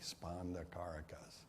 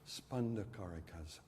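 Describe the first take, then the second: First: It is said with a Kentucky accent. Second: It is said with a New York accent. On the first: The speaker says it this way. "and I say" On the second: Someone else says it this way. "she says"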